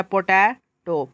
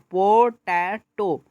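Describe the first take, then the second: First: Said in the usual way. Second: पोटैटो slowly, as पो, टै, टो; split into three syllables. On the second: Shown as a demonstration. Teacher demonstrating three syllables, पोटैटो broken into beats. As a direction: give each syllable of पोटैटो its own slow beat. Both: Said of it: "three syllable हुआ".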